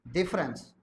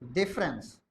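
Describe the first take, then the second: No difference in how they are said.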